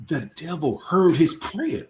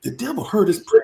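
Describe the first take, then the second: First: Slow, weighty delivery; slow and solemn. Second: "The devil heard his prayer" pitched higher and pushed harder; emphatic repeat. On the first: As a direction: let each word land slowly. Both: Shown as a demonstration.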